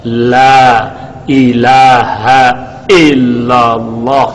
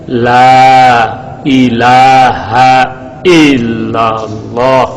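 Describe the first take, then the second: The two takes are said the same way.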